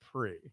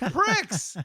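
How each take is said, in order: First: It ends on a plain vowel sound. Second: It ends with a clear ks sound. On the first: "I don't know that P R I X means pre" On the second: "so you're saying pricks"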